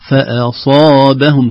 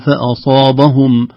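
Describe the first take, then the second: First: Only the sad sounds heavy, others light. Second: The letters around the sad sound heavy too. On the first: The speaker calls it right. "كل الحروف الكلمة مرققة" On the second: The speaker calls it wrong. "لا نقول فأصابهم"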